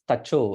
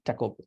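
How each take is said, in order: First: The word begins with a ch sound. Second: The word begins with a hard k sound. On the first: The speaker calls it right. "C means ch" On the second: The speaker calls it wrong. "Is it taco?"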